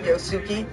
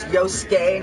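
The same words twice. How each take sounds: First: The u after the s is fully pronounced. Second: The u after the s is silent. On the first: The speaker calls it wrong. "not Yosuke" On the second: The speaker calls it right. "Y O S U K E is Yosuke"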